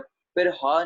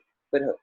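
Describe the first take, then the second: First: The second word ends in a long 'aa' vowel. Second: A bare short 'h' follows a brief break. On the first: The speaker calls it wrong. "फिर हा नहीं बोलना" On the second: The speaker calls it right. "फिर ह बोलना है, ठीक है, ब्रेक लगा के"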